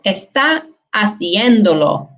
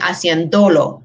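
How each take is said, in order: First: The stress falls on the syllable cien. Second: The stress falls on the syllable do. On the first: The speaker calls it right. "we want to maintain where the stress was originally" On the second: The speaker calls it wrong. "if we did not have that accent mark, we would be pronouncing"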